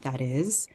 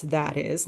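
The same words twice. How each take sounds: First: "is" stressed with a rise, "that" light. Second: "that" punched, "is" light; first word "that" stressed, second falls away. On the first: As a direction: lift and hit the second word "is". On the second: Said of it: "You can reverse it where it's". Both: Shown as a demonstration.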